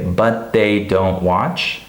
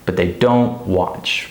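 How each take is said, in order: First: Every word stressed, BUT THEY given full weight; slow word-by-word BUT THEY DON'T WATCH, rising end; non-native stress. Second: BUT THEY light, DON'T WATCH stressed and stretched; native stress. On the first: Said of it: "a non-native speaker would probably say". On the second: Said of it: "a native speaker would say". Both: Shown as a demonstration.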